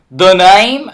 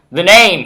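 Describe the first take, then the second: First: Louder, higher botched cowboy drawl; badly faked cowboy accent; terrible cowboy accent. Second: Said in the usual way. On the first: Player retrying the bandit's line, bad cowboy accent. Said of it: "that's a terrible cowboy accent". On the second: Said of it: "I should the cowboy accent".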